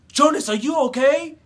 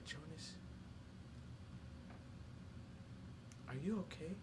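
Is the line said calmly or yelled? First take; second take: yelled; calmly. First: The line is yelled with strong feeling. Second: The line is said calmly without feeling. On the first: The speaker calls it right. "in my head, I'm like" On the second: The speaker calls it wrong. "you gotta yell that, feel it"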